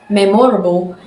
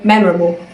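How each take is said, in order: First: Every vowel is pronounced full and clear. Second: The unstressed vowels are reduced to schwa. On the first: "she said memorable" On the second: "the American memorable"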